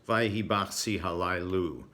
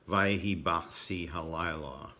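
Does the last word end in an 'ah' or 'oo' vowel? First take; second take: oo; ah. First: The last word ends in an oo vowel. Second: The last word ends in an ah vowel. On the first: "when my grandfather said Vayhi Bachsi Halayla, it was" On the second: "it has the refrain"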